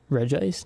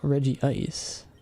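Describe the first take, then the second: First: The name is said with two syllables. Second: The name is said with three syllables. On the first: The speaker calls it wrong. "No, no, no" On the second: The speaker calls it right. "Reggie Ice will be forever how to pronounce it"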